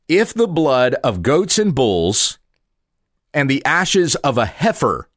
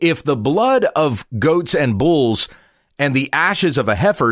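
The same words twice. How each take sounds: First: It is read at a slower pace. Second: It is read at a quicker pace.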